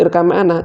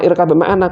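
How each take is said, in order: First: The b sound is merged into the m. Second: The b sound is pronounced separately before m. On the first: The speaker calls it right. "idgham mutaqarribain" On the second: The speaker calls it wrong. "Kok ora irkab ma'ana"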